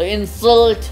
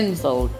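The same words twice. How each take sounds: First: The stress is on the second syllable. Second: The stress is on the first syllable. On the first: It is used as a verb. "Salt पे जब देंगे जोर तो ये हमारा verb" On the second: It is used as a noun. "इन पे अगर जोर देंगे"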